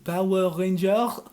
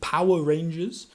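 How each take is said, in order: First: The name is said with a French accent. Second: The name is said with an English accent. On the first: The listener understands the name. The speaker calls it right. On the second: The listener does not understand the name. The speaker calls it wrong.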